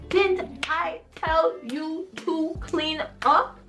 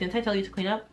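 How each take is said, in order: First: It is yelled loudly, stressing every word. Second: It is said in a calm reminding tone.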